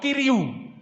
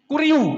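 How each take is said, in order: First: The first vowel sounds like ee. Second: The first vowel sounds like oo.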